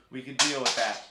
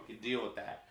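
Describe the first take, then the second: First: Relieved. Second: Said in the usual way. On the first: Real, not acted. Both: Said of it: "It's a four".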